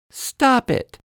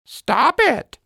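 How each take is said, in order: First: High little-girl voice, a mild mock shout; high childish "Stop it" with a firm drop; girl scolding. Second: High squawky parrot echo of "Stop it"; parrot copying. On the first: Lizzie telling Parrot off in a high girl's voice. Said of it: "Lizzie shouts at Parrot". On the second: Acted. Parrot mocking Lizzie by copying, high parrot voice. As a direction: parrot mimicking her words back, cheeky. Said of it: "Parrot repeats".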